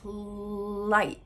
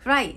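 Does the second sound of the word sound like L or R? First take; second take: L; R. First: The second sound is a clear L. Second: The second sound blurs toward an R. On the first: The speaker calls it right. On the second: The speaker calls it wrong.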